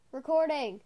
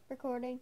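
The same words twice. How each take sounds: First: Much louder sing-song call of the word "recording", falling at the end. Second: Said in the usual way. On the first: Shown as a demonstration. Calling out "recording" to someone off camera, loudly.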